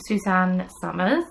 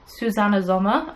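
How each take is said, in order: First: Said in the usual way. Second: Designer's name in a German accent. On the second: Shown as a demonstration. Host naming the shrug's Austrian designer, German accent. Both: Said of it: "I always say it in a German accent".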